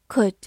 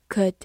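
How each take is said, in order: First: Said in the usual way. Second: "could" with its vowel reduced to a schwa; unstressed weak-form "could". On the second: Shown as a demonstration. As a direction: say "could" weakly, with a neutral vowel. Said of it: "或者弱读成".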